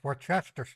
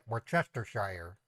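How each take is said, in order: First: The word is said in a shortened form. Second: Every written syllable of the word is sounded. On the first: This is the common pronunciation. "That's how most people pronounce it" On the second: This follows the spelling. "I pronounce the way I see it"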